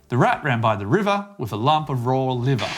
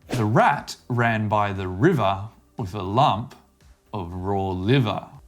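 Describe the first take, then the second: First: It is said quickly. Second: It is said slowly.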